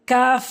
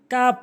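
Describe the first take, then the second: First: "কাফ" long, ending in hissed f; correct pronunciation. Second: "কাপ" short, ending in p; wrong pronunciation. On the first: Teacher models the Arabic letter, long "কাফ". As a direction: stretch "কাফ" and finish on f. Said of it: "সঠিক উচ্চারণ". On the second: Teacher shows learners the mistake, short "কাপ". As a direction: close the lips on "কাপ". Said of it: "ভুল উচ্চারণ". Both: Shown as a demonstration.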